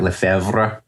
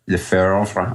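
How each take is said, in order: First: Lefebvre said the French way, with a French r and a rising end; French accent. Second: Said in the usual way. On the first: Shown as a demonstration. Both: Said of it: "that's my attempt at a French accent".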